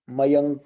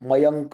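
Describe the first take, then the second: First: The word ends with a full 'ka' syllable. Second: The word ends with a full 'ka' syllable.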